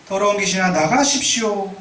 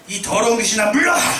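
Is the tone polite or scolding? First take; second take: polite; scolding. First: It is said in a mild, polite tone. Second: It is said in a sharp, scolding tone.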